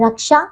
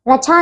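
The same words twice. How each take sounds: First: रक्षा with "ksh": raksha; correct pronunciation. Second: रक्षा with "chh" for "ksh": rachha; mispronunciation. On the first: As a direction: sound both k and sh in रक्षा. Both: Shown as a demonstration. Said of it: "रक्षा नहीं".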